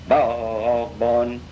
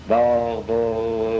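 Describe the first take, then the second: The two takes are said the same way.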